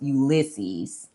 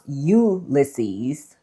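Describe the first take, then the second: First: It is said with an American pronunciation. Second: It is said with a British pronunciation. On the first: "typically in America" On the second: "Typically in the U K"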